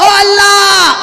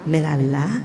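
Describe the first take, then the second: First: It is called out in a loud voice. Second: It is called out softly and gently.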